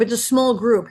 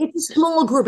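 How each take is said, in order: First: Said in the usual way. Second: Higher, louder, stressing "small"; "small" punched up in agreement; emphatic agreement. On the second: Real, not acted. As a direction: lean on "small" in "it's a small group". Agreeing about voice actors.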